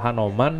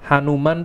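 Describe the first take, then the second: First: The second vowel sounds like o. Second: The second vowel sounds like u. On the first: This is the Indonesian wayang form of the name. "Kalau Hanoman yang ini Indonesia" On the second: "Hanuman tuh dari yang ini Hindunya"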